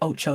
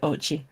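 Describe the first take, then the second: First: The name ends with an 'oh' sound. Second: The name ends with an 'ee' sound. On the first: The speaker calls it wrong. "you don't say Ocho" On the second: The speaker calls it right. "you say Ochi"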